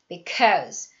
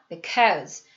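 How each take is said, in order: First: The first syllable is barely voiced, mostly mouthed. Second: The same.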